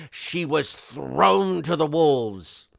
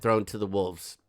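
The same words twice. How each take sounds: First: Slow, stretched-out melodrama; mock-dramatic reading. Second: Said in the usual way. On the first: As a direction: draw out "thrown" for theatrical effect. Reads letter's line with mock drama.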